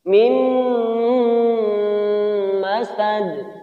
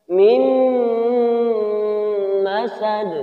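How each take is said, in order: No difference in how they are said.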